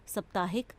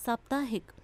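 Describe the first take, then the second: First: साप्ताहिक with a short a, səp-taahik; wrong form read. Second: Said in the usual way. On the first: Shown as a demonstration. Teacher showing pupils the error: साप्ताहिक with a short sa. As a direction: clip the first vowel of साप्ताहिक. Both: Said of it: "आ की मात्रा होनी चाहिए".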